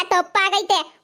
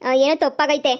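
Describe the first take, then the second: First: ತಪ್ಪಾಗೈತೆ said firm and falling, a flat verdict; stressed correction. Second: Said in the usual way. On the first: Acted. Aunt corrects the neighbour, stressing ತಪ್ಪಾಗೈತೆ with a firm fall. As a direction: hammer ತಪ್ಪಾಗೈತೆ as fact, not maybe. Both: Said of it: "ಏನೋ ತಪ್ಪಾಗೈತೆ ಅಲ್ಲ".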